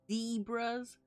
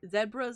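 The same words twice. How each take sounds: First: It is said with an American pronunciation. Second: It is said with a non-American pronunciation.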